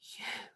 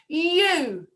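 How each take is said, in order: First: The word is whispered softly. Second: The word is shouted loudly. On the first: "Now can we whisper the word you?" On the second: "Now can we shout the word you?"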